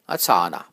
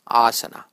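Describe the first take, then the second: First: The second vowel is long. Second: The first vowel is long. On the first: The speaker calls it wrong. "If you make the second A long, then you get asana, which is incorrect" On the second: The speaker calls it right. "If you make the first A long, then it is asana, which is correct"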